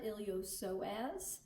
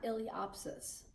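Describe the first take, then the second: First: The P sound is left silent. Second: The P sound is clearly pronounced. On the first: The speaker calls it right. "is how you pronounce that" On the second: The speaker calls it wrong. "some people do pronounce the P, but that is wrong"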